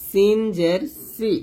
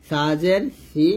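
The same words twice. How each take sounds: First: সিন জের সি slowly with sharp s; thin hissed s. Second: সা জের সি slowly, lisped th for স; tongue on upper teeth. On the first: Teacher spelling out the vowel, সি with thin s. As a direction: keep সি thin and hissed, drawn out. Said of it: "নিচে দাঁতের সাথে লাগিয়ে পাতলা করে". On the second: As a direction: make সি sound like 'thi'. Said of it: "জিহ্বার আগাটা উপরে দাঁতে লাগবে". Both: Shown as a demonstration.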